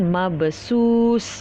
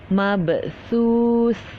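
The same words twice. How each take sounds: First: The consonant is a plain hissing s sound. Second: The consonant is said with the tongue tip out. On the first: The speaker calls it wrong. "Jadi jangan mabsus... jangan samakan ya sin dengan sa" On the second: The speaker calls it right. "makhraj hurufnya tu di ujung lidah... Keluarkan sedikit lidah... mesti jelaskan"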